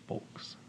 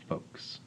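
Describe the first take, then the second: First: "folks" with the L sounded; pronounced L. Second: "folks" said like "fokes"; silent L. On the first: Tutor showing the partner's disliked pronunciation, "folks" with L. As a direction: say "folks" with an audible L before the k. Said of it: "doesn't like it when I pronounce it folks". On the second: Tutor quoting the partner's preferred pronunciation, "folks" without L. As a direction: say "folks" with no L, just a long o. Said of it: "She says it should be pronounced folks". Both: Shown as a demonstration.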